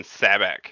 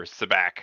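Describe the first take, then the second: First: Sabacc as SAB-ack, first syllable stressed; first pronunciation. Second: Sabacc as suh-BACK, second syllable stressed; alternative pronunciation. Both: Shown as a demonstration. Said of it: "however you wanna say it".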